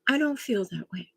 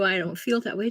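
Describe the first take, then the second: First: It is said in a calm, neutral tone. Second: It is said in an angry, confrontational tone. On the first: The speaker is simply stating their own feeling. The speaker calls it right. "say it in a neutral way" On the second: The speaker is attacking the other person. The speaker calls it wrong. "Not, how dare you"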